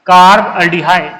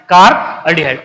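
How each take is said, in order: First: Drawn out syllable by syllable, carb aldehyde stretched slowly; slow dictation. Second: Said in the usual way. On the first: Shown as a demonstration. Teacher answering his own question for students, slow careful dictation. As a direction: spell out carb aldehyde slowly so the class can follow. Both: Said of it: "क्या बोलेंगे बेटा?".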